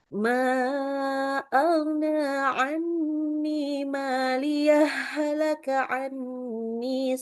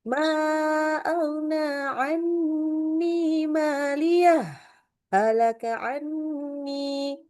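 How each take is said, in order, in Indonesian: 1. Huruf h di akhir langsung menyambung ke kata berikutnya. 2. Jeda singkat tanpa napas memisahkan kedua kata. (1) "langsung aja kayak diidghamkan" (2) "kalau kita saktahkan boleh nggak? Boleh. Bacanya ya cuman nggak ngambil nafas kan"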